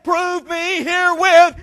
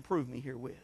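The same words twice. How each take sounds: First: Loud, slow "Prove me herewith" with herewith dropping; booming slow quote. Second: Soft, low "Prove me herewith", almost under the breath; hushed quote. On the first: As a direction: thunder God's words to the church. Preacher quoting God loudly. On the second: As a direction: drop the voice to a near hush. Quiet aside quoting God. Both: Acted.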